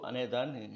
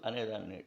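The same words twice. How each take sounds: Both takes have the same delivery.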